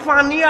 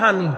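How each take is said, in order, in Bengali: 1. শব্দটি p ধ্বনি দিয়ে শুরু হয়। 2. শব্দটি h ধ্বনি দিয়ে শুরু হয়।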